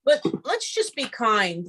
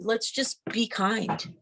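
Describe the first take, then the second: First: Said in the usual way. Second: Softer, slow repeat; softer and slower second ask; gentle plea. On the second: Real, not acted. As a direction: say it again softly, slowly, like a gentle reminder.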